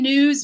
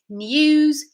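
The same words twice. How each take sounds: First: There is no y sound after the n. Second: A y sound follows the n. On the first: "we would say news, ... in North American English" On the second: "British English is going to say news"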